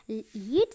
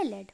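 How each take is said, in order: First: "लीड" with a long drawn ee; first word's pronunciation. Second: "लेड" with a short e; second word's pronunciation. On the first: Teacher contrasting two homographs, long-ee pronunciation. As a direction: say "लीड" to rhyme with need. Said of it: "first का है pronunciation". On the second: Teacher contrasting two homographs, short-e pronunciation. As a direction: say "लेड" to rhyme with bed. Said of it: "second का pronunciation है". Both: Shown as a demonstration.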